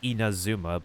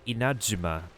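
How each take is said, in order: First: Said smoothly with a plain z sound. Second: Said with a break and a j-like sound. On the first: "the most English way to say the nation" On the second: "the actual pronunciation has a hard pause in between ... the Z ... turns into a J"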